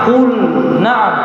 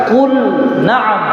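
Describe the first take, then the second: No difference in how they are said.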